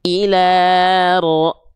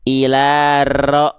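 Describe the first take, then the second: First: The r is trilled with one or two vibrations. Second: The r is trilled with many long vibrations. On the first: The speaker calls it right. "getarannya mungkin hanya satu dua getaran saja sedikit" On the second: The speaker calls it wrong. "ah nggak gitu"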